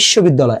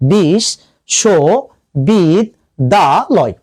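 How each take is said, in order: First: The word is said at normal speed, unbroken. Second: The word is said slowly, syllable by syllable.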